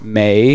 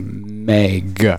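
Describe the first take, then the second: First: The vowel is long, like 'may', with no g. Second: The vowel is short, ending with a g sound. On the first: The speaker calls it wrong. "May is wrong" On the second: The speaker calls it right. "you can say Meg"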